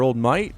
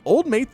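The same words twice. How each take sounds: First: Put-on Australian accent, "Mate" said like "mite"; amateur imitation of an Australian accent. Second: Said in the usual way. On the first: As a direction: attempt an Aussie accent, stretching Mate towards "mite". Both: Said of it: "my Australian accent has been compared to".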